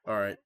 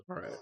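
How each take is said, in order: First: Said in the usual way. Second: Voice crack. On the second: Real, not acted. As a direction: voice cracking on a short "all right". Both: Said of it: "low voice crack there".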